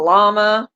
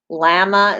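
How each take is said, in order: First: The word is said the American way. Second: The word is said the Canadian way. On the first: "instead of llama" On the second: "Llama instead of"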